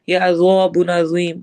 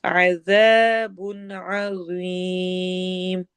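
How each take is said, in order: First: अज़ाबुन अज़ीम with both ज़ said as a plain z; wrong pronunciation demo. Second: Recited slowly, distinguishing the two letters; correct Quranic pronunciation. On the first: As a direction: say अज़ाबुन अज़ीम with the same ordinary z in both words. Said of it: "ऐसा ना हो कि दोनों एक जैसे ही अदा हों". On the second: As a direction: draw out अज़ाबुन अज़ीम and soften the second ज़ to th. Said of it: "दोनों को अलग पढ़ना है". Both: Shown as a demonstration.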